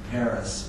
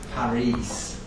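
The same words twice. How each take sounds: First: The name is said like the English city. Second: The name is said with Flemish vowel sounds. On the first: The speaker calls it wrong. "not Paris" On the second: The speaker calls it right. "is pronounced Paris"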